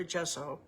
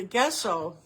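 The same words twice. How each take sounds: First: "gesso" with a soft g, like "jesso"; soft g pronunciation. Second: "gesso" with a hard g, as in guess; hard g pronunciation. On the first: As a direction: start "gesso" with a j, as in jet. Corrects to the other pronunciation. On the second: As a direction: start "gesso" like the word guess. Alternates the two pronunciations of gesso. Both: Shown as a demonstration.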